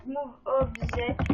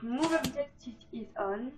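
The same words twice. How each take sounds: First: Said in the usual way. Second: Slow, clumsy French-accented English reading out the code; bad English accent. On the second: Shown as a demonstration. Gamer reading a Sims cheat code to viewers, in bad English accent. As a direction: spell out the cheat code in rough English, slowly. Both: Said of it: "mon accent en anglais est pourri".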